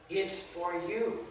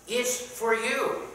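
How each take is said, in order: First: Slow, leaning on YOU; drawn-out you with a rising end; stress on you. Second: Slow, high rising YOU; drawn-out you pitched up at the end; stress on you, higher. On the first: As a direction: point the word you at the listener, slowly. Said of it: "It's for him". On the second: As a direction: lift you up high and hold it. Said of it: "that applies to". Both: Shown as a demonstration.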